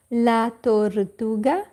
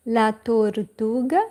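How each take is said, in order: Both takes have the same delivery.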